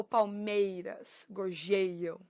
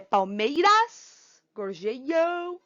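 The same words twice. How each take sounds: First: PalMEIras, gorJEIam, slow, low and falling; "palmeiras, gorjeiam" stretched on MEI and JEI; stress on second-last syllable. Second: PalmeiRAS, gorjeIAM, final syllables stretched and rising; "palmeiras, gorjeiam" with the last syllable drawn out and stressed; wrong stress on last syllable. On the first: Teacher showing the true tonic, stressing MEI in "palmeiras", JEI in "gorjeiam". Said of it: "A sílaba tônica tá aqui". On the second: Teacher testing where the tonic falls, stressing final syllables of "palmeiras, gorjeiam". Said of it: "Qual é a sílaba tônica?".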